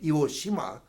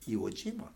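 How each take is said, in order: First: The second word begins with a voiceless sh sound. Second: The second word begins with a voiced j sound. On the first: The speaker calls it wrong. "Instead of saying Iwo Shima, harder harder to say" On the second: The speaker calls it right. "it gets a soft reading and becomes Iwo Jima"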